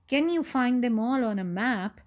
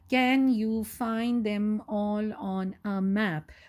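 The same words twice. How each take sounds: First: It is read as a question, rising at the end. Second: It is read flat, falling like a statement. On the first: The speaker calls it right. "read it like a question" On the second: The speaker calls it wrong. "not like that"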